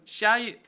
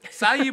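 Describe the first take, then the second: First: The word begins with an 'sh' sound. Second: The word begins with an 's' sound.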